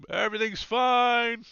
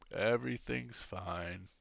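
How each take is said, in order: First: High, loud all-clear call. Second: Slow, softer, lower repeat; fading call. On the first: Guard heads back reporting all clear, calling out. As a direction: sing it out to comrades down the corridor. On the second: Guard heading back the way he came, fading call. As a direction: trail away as if walking off. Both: Acted.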